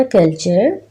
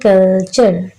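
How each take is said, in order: First: Said in the usual way. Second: कल्चर split into two beats, कल-चर; syllable by syllable. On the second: Shown as a demonstration. Teacher counting syllables for children, कल्चर said syllable by syllable. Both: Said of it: "कल्चर में कितने syllables".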